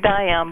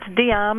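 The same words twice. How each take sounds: First: The name is given its American pronunciation. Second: The name is given its European pronunciation. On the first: "in America it's probably Diam" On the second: "in Europe it's Diam"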